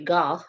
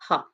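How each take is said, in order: First: The name is said the other-countries way. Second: The name is said the Dutch way. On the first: "other countries uh, say Gogh" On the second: "That is the actual correct uh, pronunciation"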